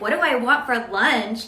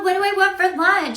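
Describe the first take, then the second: First: The tone is curt and irritated. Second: The tone is warm and friendly. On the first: The message comes from someone disliked. "from somebody that we don't really like" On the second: The message comes from a close friend. "from our best friend"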